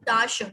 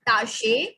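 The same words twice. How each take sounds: First: The final vowel is a weak 'uh'. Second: The final vowel is a clear 'eh'. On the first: The speaker calls it right. "we will pronounce it as a, not e" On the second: The speaker calls it wrong. "not Tasche"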